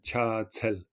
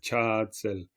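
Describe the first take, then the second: First: The second syllable has a strong puff of air. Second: The second syllable has no clear puff of air. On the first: "ça veut pas dire qu'on doit faire cha, tsel" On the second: "la deuxième, du coup, elle n'est pas forcément expirée"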